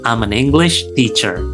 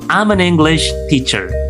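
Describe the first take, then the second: First: 'I am' is contracted into one syllable. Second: The same.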